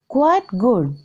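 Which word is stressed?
quite. The stress falls on quite, not good.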